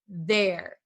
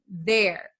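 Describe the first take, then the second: Both takes have the same delivery.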